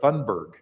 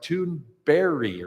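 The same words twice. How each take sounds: First: The name ends with a hard G sound. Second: The name ends with a soft Y-like sound. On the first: The speaker calls it wrong. "I have pronounced it Greta Thunberg" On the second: The speaker calls it right. "It's more like a soft J at the end that's more of an I"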